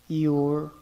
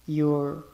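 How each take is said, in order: No difference in how they are said.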